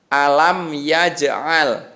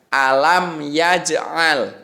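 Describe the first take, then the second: The two takes are said the same way.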